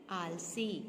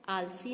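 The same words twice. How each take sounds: First: आलसी with long final ee, "aal-see"; careful model "aalsee" for आलसी; correct pronunciation. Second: आलसी with short final i, "aalsi"; wrong pronunciation. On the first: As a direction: say आलसी lower, holding the last vowel. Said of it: "पर सही शब्द क्या है?". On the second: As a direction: say आलसी with a quick ending. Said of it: "आलसी नहीं". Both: Shown as a demonstration.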